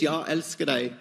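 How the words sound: It is said with a Swedish accent.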